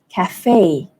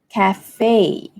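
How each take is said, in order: First: The stress is on the second syllable. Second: The stress is on the second syllable.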